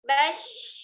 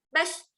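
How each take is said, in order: First: The final sh sound flows on with breath. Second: The final sh sound is cut off abruptly. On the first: The speaker calls it right. "Jadi alirkan aja suara dan nafasnya" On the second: The speaker calls it wrong. "Kalau kita stop langsung kita baca bash"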